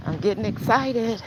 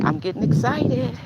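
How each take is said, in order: First: Excited again. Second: Getting excited. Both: Real, not acted.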